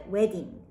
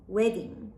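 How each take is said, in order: Both takes have the same delivery.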